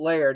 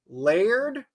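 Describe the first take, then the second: First: The name is said as one syllable. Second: The name is stretched into two syllables. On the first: The speaker calls it right. "One, one syllable" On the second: The speaker calls it wrong. "Like that?"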